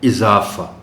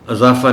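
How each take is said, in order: First: The word begins with an 'i' vowel. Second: The word begins with an 'a' vowel. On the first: The speaker calls it right. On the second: The speaker calls it wrong.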